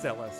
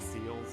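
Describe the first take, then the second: First: The name has two syllables, starting with s. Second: The name sounds like the word seals. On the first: The speaker calls it right. "but it's Celes" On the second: The speaker calls it wrong. "my pronunciation as a child of, of C E L E S being seals"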